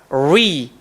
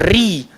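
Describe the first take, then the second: First: The r sounds like an English r. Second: The r sounds like an Arabic r. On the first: The speaker calls it wrong. "dia tak boleh jadi ri" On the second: The speaker calls it right. "dia kena jadi ri"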